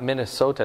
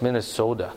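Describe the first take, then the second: First: "Minnesota" with a crisp t; "Minnesota" the standard way, t sounded; standard pronunciation. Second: "Minnesota" softened to "Minne-soda"; "Minnesota" ending like the word soda; local pronunciation. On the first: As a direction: say "Minnesota" ending in "so-ta". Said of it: "it's not Minnesota". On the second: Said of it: "it's not Minnesota, it's Minnesota". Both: Shown as a demonstration.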